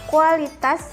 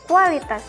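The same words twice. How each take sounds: First: The start has separate 'u' and 'a' vowels. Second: The start has a 'w' glide before 'a'. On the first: The speaker calls it right. "menggunakan fonem U A" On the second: The speaker calls it wrong. "bukan fonem W"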